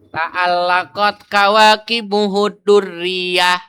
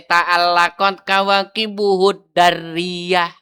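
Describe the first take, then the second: First: The d in the last word takes a u vowel. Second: The d in the last word takes an a vowel. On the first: "dengan dibaca tiga harokat dalnya"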